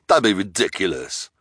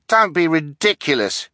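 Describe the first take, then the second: First: Mild, dismissive sneer. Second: High-pitched, eager objection. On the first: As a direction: brush them off with a touch of scorn. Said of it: "the hook-handed man sneered". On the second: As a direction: cut in eagerly, voice raised high. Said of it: "stepping forward eagerly". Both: A narrator's reading.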